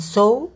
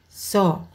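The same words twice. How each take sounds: First: A W sound is pronounced at the end. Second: No W sound is pronounced at the end. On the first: The speaker calls it wrong. "bukan saw" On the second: The speaker calls it right. "kita tidak mengucapkan huruf W"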